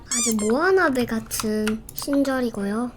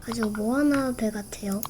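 First: Said in the usual way. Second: Softly whispered aside. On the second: Real, not acted. Streamer whispers the boat comparison to viewers as an aside. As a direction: whisper it like a secret.

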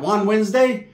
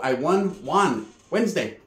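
First: Juan Wednesday said as the name Juan, like Taco Tuesday; mocking guess at the name day; joking pun. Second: "won Juan Wednesday" with won and Juan blended as one sound, a bit softer; softly said "I won Juan Wednesday", the pun run together; aunt sets the record straight, softly; aunt's explanation. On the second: Retold or imitated. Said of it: "No, because I won at bingo".

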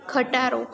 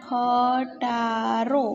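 First: Said in the usual way. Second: ખટારો stretched out syllable by syllable; drawn-out ખ, ટા, રો with small gaps; slow dictation. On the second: Shown as a demonstration. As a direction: say ખટારો slowly for writing down. Dictates the word to write.

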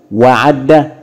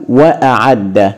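First: "وعد" run together as "wa'adda", wa straight into ayn; no glottal stop before the ayn in "وعد"; hamza dropped. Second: "وأعد" as "wa-a'adda", glottal stop after wa; hamza pronounced. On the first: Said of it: "طبعًا الكلمة بها خلل". (نطق «وعد» بوصل الواو بالعين دون همزة) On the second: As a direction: separate wa from a before the ayn in "وأعد". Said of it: "هنكتبها بهمزة وهننطق بالواو". (نطق «وأعد» بهمزة قطع قبل العين) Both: Shown as a demonstration.

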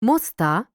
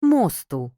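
First: "Моста" stressed on the final А; slow "Моста" with a stressed ending; stress on last syllable. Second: "мосту" stressed on the О; "мосту" with stressed О and unstressed ending; stress on first syllable. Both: Shown as a demonstration. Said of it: "все залежить від наголосу".

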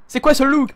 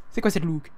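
First: High, loud, incredulous question; indignant disbelief. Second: Said in the usual way. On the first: Real, not acted. Streamer questioning a character's look, loud indignant disbelief. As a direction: demand it as if appalled.

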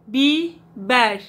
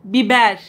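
First: Slow repeat. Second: Said in the usual way. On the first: Shown as a demonstration. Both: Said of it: "हम कहती हैं Bieber".

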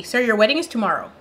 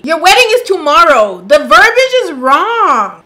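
First: Said in the usual way. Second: Louder, stressing wedding in disbelief; exasperated emphasis. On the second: Real, not acted. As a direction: hammer home "wedding" incredulously.

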